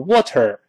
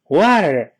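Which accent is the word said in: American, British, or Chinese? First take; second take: Chinese; American. First: It is said with a Chinese accent. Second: It is said with an American accent. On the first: "中国人发音不英不美，都成water" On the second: "是美式发音"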